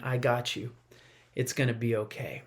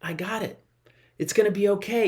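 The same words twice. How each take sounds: First: Softer, lower comforting parent; hushed, tender promise; gentle reassurance. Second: Lightly voiced calm parent, a bit higher; easy, unbothered comfort; parent reassuring. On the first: Retold or imitated. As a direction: soothe a child close to you. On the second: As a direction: brush it off kindly like a father. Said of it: "God's looking down like a parent just going".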